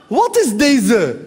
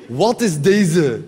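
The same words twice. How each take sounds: First: Very slow street drawl "Wat is deze"; Moroccan Dutch street. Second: Lower, very slow "Wat is deze" in street slang. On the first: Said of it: "klassieke Marokkaanse straattaalreactie". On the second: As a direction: drop low and stretch "Wat is deze". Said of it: "Dat vind ik zo'n leuke zin". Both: Retold or imitated.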